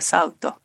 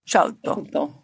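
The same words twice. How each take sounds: First: The word starts with an s sound. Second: The word starts with a sh sound. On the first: "Instead of" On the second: "the old shh for the S"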